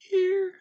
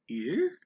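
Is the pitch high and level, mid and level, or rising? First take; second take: high level; rising. First: The pitch stays level at the top. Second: The pitch rises from middle to high. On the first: "is a tone one" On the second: "that's a tone two because it rises"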